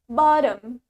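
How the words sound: It is said in an American accent. "While in American English, we say it bottom"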